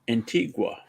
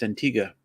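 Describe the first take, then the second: First: The name is said the way Canadians say it. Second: The name is said the way locals say it. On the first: "Canadians call an island in the Caribbean Antigua" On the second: "you hear any of the locals pronounce it, it's Antigua"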